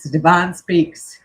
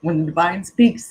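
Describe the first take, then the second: First: Louder and slower, leaning on each word; slow it down and drive the phrase home; emphatic repeat. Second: Said in the usual way. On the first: Real, not acted. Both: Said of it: "Let me tell you".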